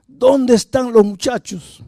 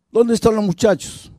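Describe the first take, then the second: First: Much higher, slow, menacing repeat; angrier repeated demand. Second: High, harsh demand barked at the wife; angry demand. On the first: Violent father repeating the demand to his wife, slowly and furiously. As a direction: drag out the threat word by word. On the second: Violent father demanding his sons from his wife, angrily. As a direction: bark the question at her. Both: Retold or imitated.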